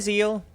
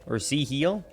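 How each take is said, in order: First: The name is one syllable, rhyming with seal. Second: The name is split into Z plus heal. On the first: "like a seal" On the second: "pronounced as Z-Heal"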